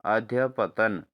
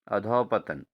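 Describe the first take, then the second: First: अध्यपतन drawn out as the correct spelling; slow correct form. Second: Said in the usual way. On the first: Shown as a demonstration. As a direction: stretch अध्यपतन slowly. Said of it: "ठीक है दोस्तों". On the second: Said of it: "अधोपतन दिया है".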